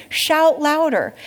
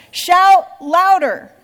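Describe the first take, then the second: First: Slow, lighter mocking jeer; mock them again, drawn out; taunting. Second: Slow, loud, high mocking jeer; mock them, stretch it out; taunting. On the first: Elijah taunting the prophets again, slow mild jeer. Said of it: "that's a serious taunt". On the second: Elijah taunting the prophets of Baal, loud and slow. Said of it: "Elijah began to taunt them".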